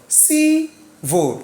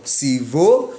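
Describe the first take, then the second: First: "Civil" high on CI, falling on vil; stress on first syllable. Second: "Civil" wrongly stressed, starting low and rising on VIL; stress on second syllable. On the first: Teacher corrects the wrong take, "Civil" stressed on ci. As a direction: hold ci up high in "Civil", then drop. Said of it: "Going up before going down". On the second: Teacher models the wrong stress, "Civil" rising on vil. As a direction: say "Civil" as ci-VIL, questioning rise. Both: Shown as a demonstration.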